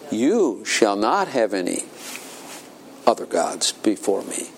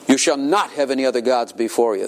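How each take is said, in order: First: It is said as a reassuring promise. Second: It is said as a stern command.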